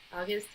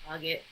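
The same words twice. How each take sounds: First: "August?" with the S sounded, as a question. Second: "August" said with no S, like "AW-git"; August without the S. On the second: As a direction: drop the S from "August". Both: Shown as a demonstration. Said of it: "There's no S in there".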